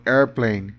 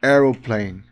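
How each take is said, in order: First: "airplane" said as two parts, AIR-plane, with an r; American "airplane", AIR then plane; American form. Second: "aeroplane" said in three parts, AIR-o-plane; British "aeroplane", extra middle syllable; British form. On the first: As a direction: say "airplane" the American way, no middle vowel. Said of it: "inglês americano". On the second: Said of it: "Inglês britânico". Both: Shown as a demonstration.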